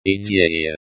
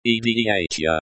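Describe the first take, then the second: First: "Idea" said the Russian way, ee-DYE-ya; Russian pronunciation. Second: "Idea" spelled out in English sounds, ee-dee-AY-tya; anglicized pronunciation. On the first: Language teacher showing learners the pronunciation, Russian "Idea". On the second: Language teacher showing learners the pronunciation, anglicized "Idea". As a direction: read "Idea" like an English transliteration. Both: Shown as a demonstration.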